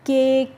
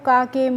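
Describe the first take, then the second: First: The vowel sounds like 'ay' with silent final e. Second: The first vowel sounds like 'ah' with a final vowel. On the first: The speaker calls it right. "कैसे पढ़ना है बच्चों" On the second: The speaker calls it wrong. "इस तरीके से नहीं पढ़ना है"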